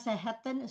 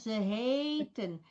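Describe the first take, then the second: First: The a vowel in the verb is short. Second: The a vowel in the verb is long. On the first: The speaker calls it wrong. "Bacanya bukan seheten" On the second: The speaker calls it right. "tidak ditutup oleh huruf mati, maka bunyinya dua"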